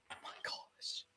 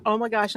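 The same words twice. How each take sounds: First: Barely audible whisper. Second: Said in the usual way. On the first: Real, not acted. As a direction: breathe it out under your breath. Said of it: "I'm just so excited". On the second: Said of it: "I'm so excited right now".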